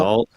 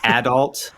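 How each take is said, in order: First: It is said in a standard way. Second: It is said in an Ontario way. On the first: "instead of"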